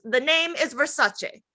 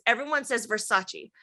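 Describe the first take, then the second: First: "Versace" ending in "cheh", ver-SAH-cheh, drawn out slowly; correct pronunciation. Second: "Versace" ending in "chee", ver-SAH-chee; common pronunciation. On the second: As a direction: end "Versace" on an EE sound. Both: Retold or imitated. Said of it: "And she goes".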